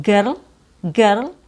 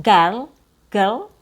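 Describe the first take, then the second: No difference in how they are said.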